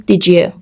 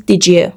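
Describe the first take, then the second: First: The two words are run together. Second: The same.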